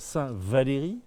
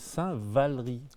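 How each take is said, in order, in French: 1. La voyelle après 'Val' sonne comme 'ay'. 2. La voyelle après 'Val' sonne comme 'uh'. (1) "on ne dit pas"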